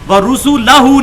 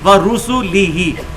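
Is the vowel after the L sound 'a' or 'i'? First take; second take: a; i. First: The vowel after the L is an 'a'. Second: The vowel after the L is an 'i'. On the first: The speaker calls it wrong. "व रुसूलहू नहीं है" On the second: The speaker calls it right. "लाम के ऊपर जबर नहीं बल्कि जेर है"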